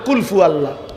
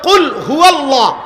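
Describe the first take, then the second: First: The second word begins with an f sound. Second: The second word begins with an h sound. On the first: The speaker calls it wrong. "আপনি তো বললেন কুল ফু আল্লাহ" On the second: The speaker calls it right. "শব্দ তো হলো কুল হুয়াল্লাহ"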